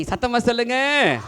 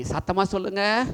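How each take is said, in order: First: Put-on higher call to the children, சொல்லுங்க falling; louder call. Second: Said in the usual way. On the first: Shown as a demonstration. (உயர்ந்த குரலில் அழைப்பு)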